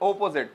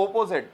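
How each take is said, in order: First: The word begins with an o vowel sound. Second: The same.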